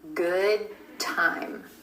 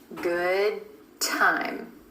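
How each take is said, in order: First: The D in good is held, unreleased. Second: The D in good is held, unreleased.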